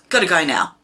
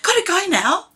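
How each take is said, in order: First: It is said in a cold, dismissive tone. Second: It is said in a warm, friendly tone. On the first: The speaker no longer wants to talk. "that tone says, I don't want to talk to you anymore" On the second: The speaker enjoyed the conversation. "Says, enjoyed chatting"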